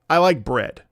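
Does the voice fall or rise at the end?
fall. The pitch falls at the end.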